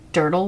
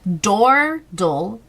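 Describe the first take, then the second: First: The first vowel sounds like the vowel in word. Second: The first vowel sounds like the vowel in door. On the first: "Is it Durdle Wordle?" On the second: "Why did I say door?"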